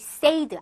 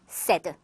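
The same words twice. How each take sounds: First: The vowel glides toward a y sound. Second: The vowel has no y glide. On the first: The speaker calls it wrong. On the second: The speaker calls it right.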